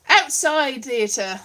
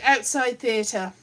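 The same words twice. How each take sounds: First: Slow emphatic. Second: Outside theatre, slow, leaning on outside; drawn-out outside theatre with weight on outside; slow repeat, stress on outside. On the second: Repeating the motto slowly to the camera. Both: Shown as a demonstration. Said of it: "that's what you need".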